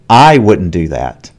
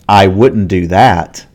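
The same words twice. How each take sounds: First: The stress falls on the word I. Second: The stress falls on the word that. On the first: Maybe someone else would do it, but not the speaker. "here there is stress on I" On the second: The speaker would make a different choice from the other person. "We don't normally stress the word that, but in this case"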